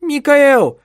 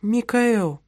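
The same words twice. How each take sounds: First: Loud, much higher scream of the name; the wife screams at her husband as he drags her upstairs, very loud and high. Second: Plaintive call. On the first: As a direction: shriek his name in panic. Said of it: "кричала она". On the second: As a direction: call him timidly, pleading. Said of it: "жалобный голос". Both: Acted.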